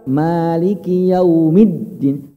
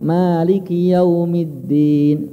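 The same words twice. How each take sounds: First: The doubled d is pressed and raised. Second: The doubled d gets no extra pressure. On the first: The speaker calls it right. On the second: The speaker calls it wrong. "enggak ada tekanannya"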